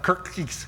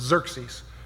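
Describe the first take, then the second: First: The name begins with a K sound. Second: The name begins with a Z sound. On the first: The speaker calls it wrong. "It's not Kirkis" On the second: The speaker calls it right. "The X is actually pronounced as a Z"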